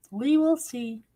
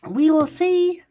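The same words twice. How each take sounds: First: Will leaned on, calmer; We will see, with weight on will; stress on will. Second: See drawn out high and loud; We will see, rising to a loud high see; stress on see. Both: Shown as a demonstration. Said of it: "repeated with other stress".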